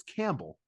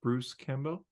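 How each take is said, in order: First: Campbell said CAMP-bul, reduced second syllable; plain. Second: Bruce Campbell with bell stressed, rising. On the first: Shown as a demonstration. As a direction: Campbell with stress on camp, bell swallowed. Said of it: "It's Campbell". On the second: Pretend. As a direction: say Campbell as camp-BELL, full bell vowel. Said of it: "why are you putting so much emphasis on the bell".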